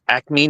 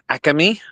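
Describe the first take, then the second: First: It is said with a standard American pronunciation. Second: It is said with a Philadelphia accent. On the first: "it's acme" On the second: "not acme"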